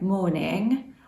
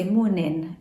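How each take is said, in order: First: "morning" with its final -ing fully sounded; careful "morning", ending in ng rather than n. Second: "morning" said as "mornin", ending in a plain n; West Country dropped G. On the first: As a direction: say "morning" with the G on the end. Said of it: "You don't put your G's on the end". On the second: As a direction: drop the G at the end of "morning". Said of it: "that is the West Country way". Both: Shown as a demonstration.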